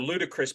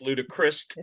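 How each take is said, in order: First: It ends without any added t sound. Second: It ends with an added t sound.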